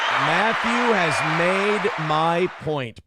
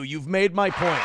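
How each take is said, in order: First: Matthew has made my point, each word slow and heavy; slow emphatic restatement. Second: Said in the usual way. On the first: Shown as a demonstration. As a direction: drag it out, stressing Matthew.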